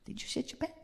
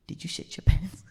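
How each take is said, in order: First: Tiny high whispered squeak; audience's timid question. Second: Hushed, breath-only asking; audience's discreet question. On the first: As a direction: ask it very softly and high, quickly. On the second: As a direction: ask it confidentially, voicing the audience. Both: Acted. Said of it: "Y'all are like".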